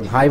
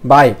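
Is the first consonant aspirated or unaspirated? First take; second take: aspirated; unaspirated. First: The first sound is a breathy aspirated bh. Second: The first sound is a plain unaspirated b. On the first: The speaker calls it right. "ভ ভ উচ্চারণ হবে, ভাই বলতে হবে" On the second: The speaker calls it wrong. "আসলে তা হবে না"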